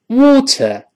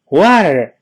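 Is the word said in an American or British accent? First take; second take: British; American. First: It is said in a British accent. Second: It is said in an American accent. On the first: "Water 是英式发音" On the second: "Water 是美式发音"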